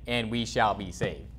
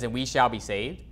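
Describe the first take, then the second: First: "And we shall be saved." slow and falling firmly on "saved"; confident statement, "And we shall be saved." falling at the end; read as a statement. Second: "And we shall be saved"? with a rising question tune on "saved"; read as a question. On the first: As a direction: state "And we shall be saved" with a settled downward tune. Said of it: "where this is a statement". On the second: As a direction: ask "And we shall be saved" as a doubtful question ending upward. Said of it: "They put a question mark". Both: Shown as a demonstration.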